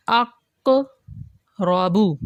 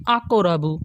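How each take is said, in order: First: اقربو drawn out slowly, q given only a light bounce; light qalqala. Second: Said in the usual way. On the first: Shown as a demonstration. Teacher reads a Quran word slowly: light mid-word bounce. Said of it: "اس کی جنبش بہت زیادہ نہیں کی". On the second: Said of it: "normal سی کی ہے".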